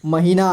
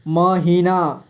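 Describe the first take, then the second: First: Said in the usual way. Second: महीना split into म, ही, ना; syllable by syllable. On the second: Shown as a demonstration. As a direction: draw out each syllable of महीना. (महीना को तोड़कर: म, ही, ना) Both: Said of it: "थोड़ा फास्ट पढ़ेंगे".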